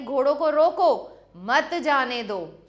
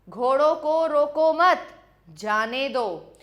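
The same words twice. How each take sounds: First: There is a pause after 'roko'. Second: There is a pause after 'mat'.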